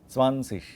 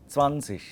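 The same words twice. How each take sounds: No difference in how they are said.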